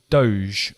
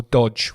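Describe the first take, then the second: First: "Doge" with a long O and soft zh ending. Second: "Doge" said like "dodge"; short O and hard j sound in "Doge". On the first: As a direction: say "Doge" as "dohzh". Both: Shown as a demonstration. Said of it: "however you pronounce it".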